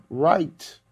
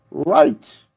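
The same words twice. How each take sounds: First: Said in the usual way. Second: Write said high and loud with a rising call; emphatic repeat. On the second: Shown as a demonstration. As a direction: call out Write to the crowd, much higher.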